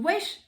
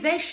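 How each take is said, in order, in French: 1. Le mot commence par un son w. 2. Le mot commence par un son v. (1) "Le W, tu le dis le wesh quand même" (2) "Tu vas pas dire"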